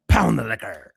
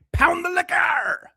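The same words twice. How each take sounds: First: "Pound the liquor" barked loud at normal pitch. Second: Chanted, drawn-out, much higher shout on "Pound the liquor"; high mock chant. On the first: Acted. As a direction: drop back down and shout it flat out. Chanting taunt at drinker. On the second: Taunting a man drinking on stream, slow high shouted chant.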